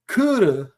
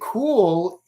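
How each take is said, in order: First: It is said as two Japanese syllables. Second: It is said as one English syllable. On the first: "they would say Kuru" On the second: "if you say cool"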